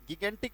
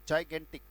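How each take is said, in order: First: The word begins with a hard g sound. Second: The word begins with a j sound. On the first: The speaker calls it wrong. "गिगेंटिक नहीं पढ़ना है" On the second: The speaker calls it right. "इसका उच्चारण जो होता है वो बेटा जाइगेंटिक होता है"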